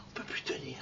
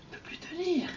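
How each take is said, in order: First: Barely breathed, almost no voice; faint whisper. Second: Said in the usual way. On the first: Shown as a demonstration. People at Sinai, overwhelmed, in a faint whisper. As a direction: whisper it as if voice gives out.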